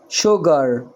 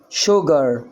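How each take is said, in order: First: The word begins with an sh sound. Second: The word begins with an sh sound.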